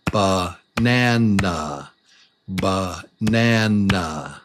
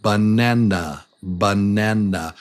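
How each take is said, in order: First: "Banana" stretched slowly, one beat per syllable. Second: Said in the usual way. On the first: Shown as a demonstration. Teacher showing the beats of a word, slow syllable-by-syllable "banana". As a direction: draw out each beat of "banana". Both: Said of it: "a syllable is one beat of sound".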